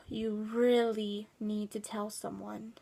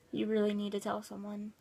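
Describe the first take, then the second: First: Slow, drawn-out stress on "really" after a sigh; sigh, then lean long on "really"; emphatic plea. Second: Said in the usual way. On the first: Real, not acted. Repeats advice slowly for emphasis.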